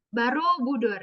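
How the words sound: The first vowel is reduced to an 'a' sound. "karena ngomongnya Barobudur gitu"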